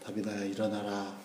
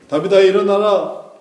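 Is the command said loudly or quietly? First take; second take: quietly; loudly. First: The command is said quietly. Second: The command is said loudly. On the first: "작게 했던" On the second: "크게 했던"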